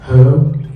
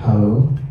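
First: The voice has an added sound effect. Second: The voice is dry, with no added effect. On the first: "Kita kasih efek flat aja" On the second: "Ini belum ada efeknya"

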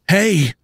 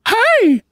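First: It is said in a plain, normal voice. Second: It is said in a hushed Mickey Mouse voice.

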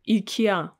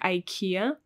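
First: The name is said the Russian way. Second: The name is said the English way. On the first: "So in Russian it will be IKEA" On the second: "in English mostly it should be pronounced like IKEA"

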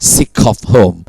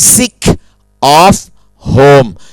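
First: The k sound links into the next word. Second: Each word is said separately without linking. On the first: The speaker calls it right. "ฝรั่งพูด ... ตัวนี้จะเชื่อมกัน" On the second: The speaker calls it wrong. "อาจารย์ไม่พูดว่า"

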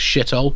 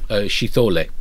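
First: It is said in a plain English way. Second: It is said with a Hebrew-like accent. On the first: The speaker calls it wrong. "I mispronounced that" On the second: The speaker calls it right.

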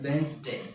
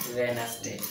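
First: The word is said with two syllables. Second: The word is said with three syllables. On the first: The speaker calls it right. "टू syllables" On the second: The speaker calls it wrong. "not Wednesday"

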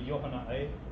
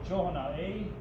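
First: The word begins with a Y sound. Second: The word begins with an H sound. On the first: The speaker calls it wrong. "We don't say yohana'e" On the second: The speaker calls it right. "Use a J to make a ha sound"

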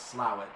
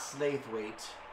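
First: The name is said in a shortened form. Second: The name is said in its full form. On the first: The speaker calls it right. "That's apparently known as Slaithwaite" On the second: The speaker calls it wrong. "not Slaithwaite"

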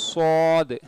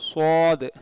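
The two takes are said the same way.

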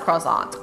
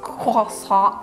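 First: It is said with a plain English accent. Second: It is said with an exaggerated French accent.

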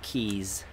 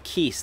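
First: The word ends in a buzzing z sound. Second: The word ends in a hissing s sound. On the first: The speaker calls it wrong. "not keys" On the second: The speaker calls it right. "I found out they're called keys"

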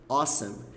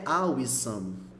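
First: It is said with natural English sounds. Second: It is read letter by letter, Portuguese style. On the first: The speaker calls it right. "Ela lida assim, ó" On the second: The speaker calls it wrong. "Não é awesome"

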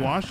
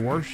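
First: The word is said without an r sound. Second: The word is said with an r sound. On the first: "they don't wash anything" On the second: "they wash it"

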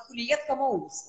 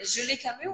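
First: The name is said as Huliet Kamous. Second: The name is said as Zhuli Kamyu. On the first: The speaker calls it wrong. "у него была «Хулиет Камоус»" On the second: The speaker calls it right. "это «Жюли Камю»"

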